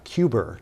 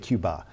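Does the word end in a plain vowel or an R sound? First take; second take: R sound; plain vowel. First: The word ends with an added R sound. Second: The word ends in a plain vowel. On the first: "it almost turns into an E R, Cuber" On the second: "We say Cuba"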